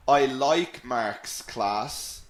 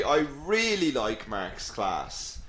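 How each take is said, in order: First: Said in the usual way. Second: "really" drawn out and lifted, then falling away; emphatic REALLY. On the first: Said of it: "instead of saying". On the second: Shown as a demonstration. Teacher giving the stronger version, emphatic stress on "really". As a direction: lean hard and slow on "really". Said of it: "we call them emphatic expressions".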